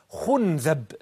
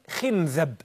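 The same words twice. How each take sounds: First: The first vowel is u. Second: The first vowel is i. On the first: "الضم" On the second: "بالكسر"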